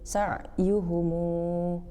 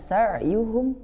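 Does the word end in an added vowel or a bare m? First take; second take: added vowel; bare m. First: The word ends with an extra u vowel. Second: The word ends on a closed m sound. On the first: "silah yakni menyambungkan mim jamak dengan huruf mat" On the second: "Jika dibaca sukun"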